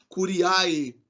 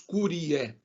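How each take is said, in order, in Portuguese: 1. A terminação é pronunciada como duas vogais separadas. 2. A terminação é pronunciada como um único som de E. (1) "Então não falem cur, curiae" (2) "a pronúncia é no som de E"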